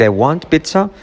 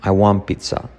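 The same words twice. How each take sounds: First: "want" with its final T sounded before "pizza"; T pronounced. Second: "want" without its T, running into "pizza"; T omitted. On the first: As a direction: keep the T in "want", pitch lifting. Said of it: "Puedes decir". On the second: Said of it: "puedes decir también". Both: Shown as a demonstration.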